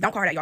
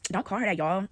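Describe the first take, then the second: First: It is said in a serious, sincere tone. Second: It is said in an amused, mocking tone. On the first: The speaker genuinely wants the name-calling to stop. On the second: The speaker secretly finds the name-calling funny.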